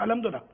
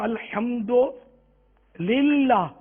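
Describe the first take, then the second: First: It is said quickly and run together. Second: It is said slowly with a short pause. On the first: The speaker calls it wrong. "ये अमूमन निकलता है" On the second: The speaker calls it right. "थोड़ा रुक के बोले ना"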